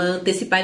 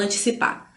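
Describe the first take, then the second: First: "antecipar" with a clear TE; common pronunciation. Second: "antecipar" said an-chi-cipar; rare variant. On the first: Teacher shows what everybody says, common pronunciation. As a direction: say an-te-cipar with an E, quickly. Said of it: "todo mundo fala antecipar". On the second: Teacher shows what nobody says, rare variant. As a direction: turn the E of "antecipar" into a chi sound. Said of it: "ninguém fala antecipar". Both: Shown as a demonstration.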